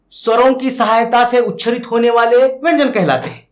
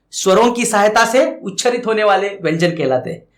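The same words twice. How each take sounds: First: Louder, emphatic definition read out for notes; वरों की सहायता से said firmly for dictation; dictated definition. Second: Said in the usual way. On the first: Shown as a demonstration. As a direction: announce the definition clearly to the class. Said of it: "definition dictated twice". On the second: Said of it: "definition repeated".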